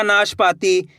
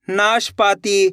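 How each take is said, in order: First: Said in the usual way. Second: नाशपाती slowly, as naash, paatee; two parts. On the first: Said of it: "तो मिलके बन जाएगा". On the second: Shown as a demonstration. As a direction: say नाशपाती in two slow chunks. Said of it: "दो दो करके".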